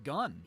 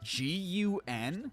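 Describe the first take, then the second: First: It is said as one single word. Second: It is spelled out as three separate letters. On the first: The speaker calls it right. "It's always been gun" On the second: The speaker calls it wrong. "we've never pronounced it like that"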